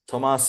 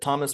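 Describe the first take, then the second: First: The name has a non-American, native-style pronunciation. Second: The name has an American English pronunciation. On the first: "I think the way you say it is Tomas" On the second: "I'll just say it the American way"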